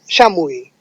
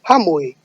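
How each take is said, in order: First: It is pronounced the San Martin Quechua way. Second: It is pronounced the Cusco Quechua way. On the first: "in San Martin they said Shamui" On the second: "in Cusco you say Hamui"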